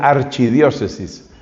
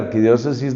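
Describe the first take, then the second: First: The consonant after 'ar' is a 'ch' sound. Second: The consonant after 'ar' is a 'k' sound.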